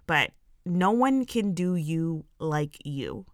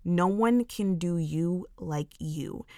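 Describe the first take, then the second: First: No one can do you like you, slow and deliberate with a lift on one; slow emphatic mantra. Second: No one can do you like you, slow and weighty with stress on one; slow deliberate repeat of the mantra. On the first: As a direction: say it slowly like a mantra. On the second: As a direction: repeat it slowly so it sinks in. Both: Shown as a demonstration. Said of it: "Like, just take that in".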